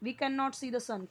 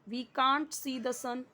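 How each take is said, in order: First: "Cannot" is said in full as two words. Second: "Cannot" is contracted into the single word "can't".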